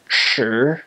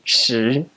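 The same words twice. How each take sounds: First: Beijing accent: a dark, heavy sh sound. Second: Taiwan accent: a lighter sound, close to si.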